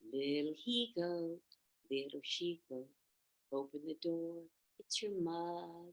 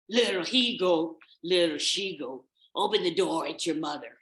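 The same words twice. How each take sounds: First: It is said in a gentle, motherly voice. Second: It is said in a gruff, wolf-like voice. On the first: The speaker passes for the mother. The speaker calls it right. "till he got it just perfect" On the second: The speaker cannot hide who he is. The speaker calls it wrong. "he said it in his best wolf voice"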